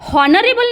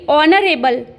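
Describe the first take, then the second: First: The word begins with an h sound. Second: The word begins with a vowel sound. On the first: The speaker calls it wrong. "हॉनरेबल नहीं बोलेंगे दोस्तों, यहाँ पर ये बोलना गलत होगा" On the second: The speaker calls it right. "उच्चारण अ के समान हो जाता है"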